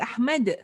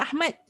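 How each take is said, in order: First: The final d ends with an echoing bounce. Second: The final d ends without an echoing bounce. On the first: The speaker calls it right. "There is a qalqalah of it" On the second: The speaker calls it wrong. "It's not even Ahmad"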